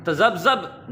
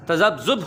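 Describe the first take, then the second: First: "तज़ब्ज़ब" with a short a at the end; the wrong "तज़ब्ज़ब", tazabzab; teacher shows the wrong "तज़ब्ज़ब"; wrong pronunciation. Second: "तज़ब्ज़ुब" with u in the last syllable; teacher models "तज़ब्ज़ुब"; correct pronunciation. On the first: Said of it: "नहीं होता". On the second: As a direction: say "तज़ब्ज़ुब", tazabzub. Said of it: "होता है". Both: Shown as a demonstration.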